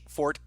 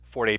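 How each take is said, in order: First: The word ends without a sounded final vowel. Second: The word ends with a sounded final vowel. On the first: A strength or strong point. "silent E" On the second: The musical term for playing loudly. "A forte is a musical term"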